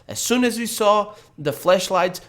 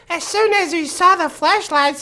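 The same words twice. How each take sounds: First: It is read in the speaker's normal voice. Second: It is read in a put-on girl's voice.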